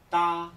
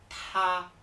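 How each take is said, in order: First: The t is released without a puff of air. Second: The t is released with a strong puff of air. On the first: The speaker calls it wrong. "no será ta" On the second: The speaker calls it right. "echando mucho aire"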